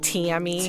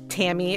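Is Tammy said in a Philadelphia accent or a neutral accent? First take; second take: Philadelphia; neutral. First: Tammy is said with a Philadelphia-area vowel. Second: Tammy is said with a plain, neutral vowel. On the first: "except, like, it was, you know, like, Tammy. ... because we're from ... The Philly area" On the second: "A couple people called me Tammy"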